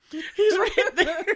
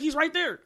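First: Much higher and louder, slow, laughing; laughing exasperation. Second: Insistent pointing out. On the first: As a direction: laugh in disbelief, drawing it out slowly. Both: Acted.

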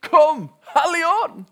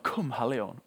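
First: Drawn-out, much higher and louder cry to the Spirit; shouted call. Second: A half-voiced echo of the cry; mild retold call. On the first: Retold or imitated. Preacher reenacting the hippie calling on the Spirit, full shout. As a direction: cry out to the room at full force. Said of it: "roper han ut". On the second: Preacher repeating the call to the congregation, mild mock shout. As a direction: call it out lightly, only a touch louder. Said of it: "så ropte han".

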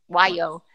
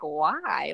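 First: Bright smiling "Why, yo?"; said with a smile. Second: Said in the usual way. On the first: Shown as a demonstration. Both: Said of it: "it comes with a smile when you say it".

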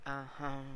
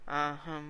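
First: Imitating her sassy, level uh-huh; uh-huh with attitude. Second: Imitating her louder, sassy uh-huh; uh-huh with attitude. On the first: Podcaster repeats ex's habitual reply, with attitude. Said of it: "Like, with an attitude". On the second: Podcaster imitates ex's habitual reply, with attitude. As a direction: give her punchy, knowing uh-huh. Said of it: "with an attitude".

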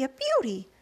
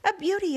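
First: A slightly calmer repeat of the cry; excited echo. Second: Higher, louder delighted exclamation; excited cry. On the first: Aunt Sponge repeating her praise, calmer. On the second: Aunt Sponge admiring the peach, delighted cry. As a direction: gush over the fruit. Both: A narrator's reading. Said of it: "Aunt Sponge cried out".

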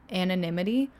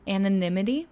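First: Anonymity said again, a bit steadier; settled pronunciation. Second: Anonymity? tried with a rising, unsure tune; unsure pronunciation. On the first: Vlogger retrying the word she stumbled on, settled. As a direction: try Anonymity a second time. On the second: Vlogger unsure how to say the word, testing it. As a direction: test out Anonymity? as a question. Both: Shown as a demonstration. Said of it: "how do I say this word?".

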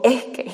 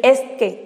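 First: Coastal Mexican accent on "es que"; acento costeño. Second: Said in the usual way. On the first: Shown as a demonstration. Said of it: "se me ha salido un ligero acento, costeño". ("es que" con ligero acento costeño, aspirando la s) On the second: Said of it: "en vez de decir".

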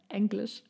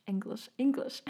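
First: Said in the usual way. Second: English said with a German accent. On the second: Shown as a demonstration. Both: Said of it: "Sorry, that was my German accent".

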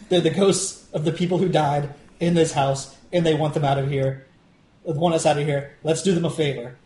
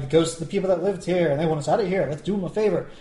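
First: Earnest, straightforward delivery with level pitch; genuine. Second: Mock-sweet sarcastic quote with lilting pitch. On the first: Acted. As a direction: say it seriously, with no sarcasm. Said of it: "I would be genuine about it". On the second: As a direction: imitate her sarcasm in a singsong lilt. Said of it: "she says it in kind of sarcastic tone".

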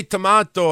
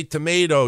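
First: "tomato" with a broad ah, to-MAH-to; tomahto. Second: "tomato" with a long ay, to-MAY-do; tomayto. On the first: Host quotes the other side's way, to-MAH-to. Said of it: "You say tomato". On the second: Host gives his own way, to-MAY-do. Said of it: "I say tomato". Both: Shown as a demonstration.

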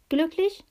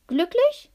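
First: Lightly teasing, high rising question; whispered. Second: High, loud, rising question; fluting. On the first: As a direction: lift it gently into the ear. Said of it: "wisperte es in seinem Ohr". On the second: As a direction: sing it out sweetly, leaping up high. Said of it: "flötete Pistacia ihm ins Ohr". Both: A narrator's reading.

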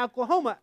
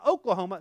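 First: "Oklahoma" with a flat A at the start; bad Oklahoma accent. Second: Said in the usual way. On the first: Shown as a demonstration. Joking about his accent, "Oklahoma" as ACK-la-homa. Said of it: "That's a real bad accent". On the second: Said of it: "I prefer my Oklahoma".

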